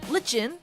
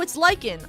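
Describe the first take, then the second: First: The middle consonant is a ch sound. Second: The middle consonant is a k sound. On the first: The speaker calls it wrong. "Where'd the lich come from?" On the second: The speaker calls it right.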